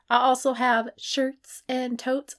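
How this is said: It is said in a goofy put-on voice.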